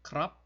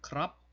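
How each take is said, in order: Both takes have the same delivery.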